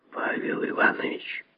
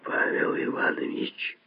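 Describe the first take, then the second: First: Venomous whisper of a colleague's name; angry whisper. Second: Very soft whisper, the spite gone; faint whisper, no anger. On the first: Lazovsky to fellow surgeon over the patient, angry whisper. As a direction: whisper it with contained spite. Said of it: "сказал шёпотом и злобно Лазовский". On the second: Lazovsky appealing to fellow surgeon, hushed whisper without anger. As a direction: whisper the name without any malice. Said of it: "ещё тише сказал Лазовский, теперь уже никак не злобно". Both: A narrator's reading.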